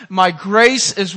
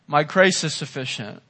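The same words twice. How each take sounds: First: My grace is, said slowly and pulled out; preacher prompting the congregation, slow and stressed; slow emphatic recital. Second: Said in the usual way. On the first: Shown as a demonstration.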